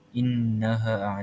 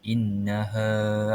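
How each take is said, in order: First: The final vowel is cut short. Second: The final vowel is held long. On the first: The speaker calls it wrong. "kita tak boleh innaha innaha 'alai, ha, tak boleh" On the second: The speaker calls it right. "kita perlu panjangkan dua harakat"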